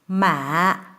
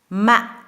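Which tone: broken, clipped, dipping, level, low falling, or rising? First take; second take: dipping; clipped. First: The pitch dips low, then rises gently. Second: The pitch falls low and stops sharply. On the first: It means tomb. "falling low tone rising gently back up to a high tone" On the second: It means rice seedling. "falling low tone that you cut off sharply"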